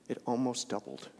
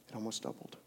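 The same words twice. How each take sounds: First: Said in the usual way. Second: Almost doubled dropped way softer; hushed repeat. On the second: Real, not acted. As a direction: let it sink in, much softer.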